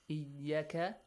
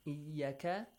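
First: The vowel after the y is short. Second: The same.

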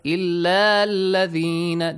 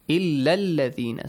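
First: The final vowel is held long before joining. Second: The final vowel is short and joined quickly. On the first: The speaker calls it wrong. "So do not recite it as ... This is wrong" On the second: The speaker calls it right. "Short vowel will be pronounced. No long vowel"

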